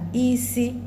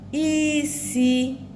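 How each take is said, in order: First: Both syllables are on a high tone. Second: A high tone is followed by a mid tone. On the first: It means head. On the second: It means to cook. "to cook"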